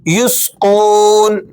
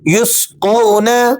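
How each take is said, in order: First: The word ends on a bare consonant. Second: The word ends with a short final vowel. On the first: The reader stops on this word. "वक्फन" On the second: The word is read in continuous recitation. "नून जबरना"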